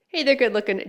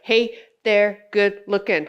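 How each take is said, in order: First: It is said in her natural voice. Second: It is said in a flat robotic voice.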